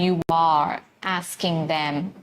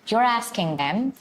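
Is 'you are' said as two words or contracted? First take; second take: two words; contracted. First: You are is said as two full words. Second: You are is joined into one syllable. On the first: "I'm not saying you are asking them" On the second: "I'm just joining my words and saying you're asking them"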